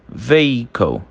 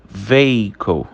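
The two takes are said the same way.

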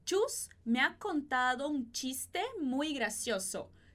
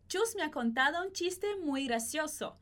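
First: The sentence is spoken somewhat slowly. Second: The sentence is spoken somewhat quickly. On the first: "primeiro um pouquinho mais devagar" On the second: "depois um pouquinho mais rápido"

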